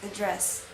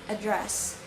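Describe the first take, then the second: First: The stress is on the last syllable. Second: The stress is on the first syllable. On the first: This is the British form. "in British it's in the last syllable" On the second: This is the American form. "in American the stress is in the first syllable"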